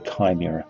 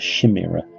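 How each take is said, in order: First: The word begins with a hard K sound. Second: The word begins with a soft, non-K sound. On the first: The speaker calls it right. "that C H is a K sound" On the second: The speaker calls it wrong. "It's not a chimera"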